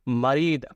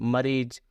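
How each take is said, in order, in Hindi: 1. शब्द का अंत 'd' ध्वनि से होता है। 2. शब्द का अंत 'z' ध्वनि से होता है। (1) "अरबी में हम मरीद भी बोल सकते हैं" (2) "और मरीज भी"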